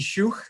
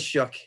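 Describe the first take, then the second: First: The name is said with a German pronunciation. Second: The name is said with an English pronunciation. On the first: This is how it sounds in the original language. "in the German language it would be schuch" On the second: This is how the family says it. "but we just say shook"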